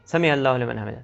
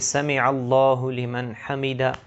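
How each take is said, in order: First: It is recited quickly and hurriedly. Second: It is recited slowly and carefully.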